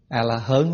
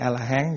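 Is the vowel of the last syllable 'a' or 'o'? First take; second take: o; a. First: The last syllable has an 'uh' vowel. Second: The last syllable has an 'ah' vowel. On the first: "A-la-hớn hay A-la-hán gì cũng được" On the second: "A-la-hớn hay A-la-hán gì cũng được"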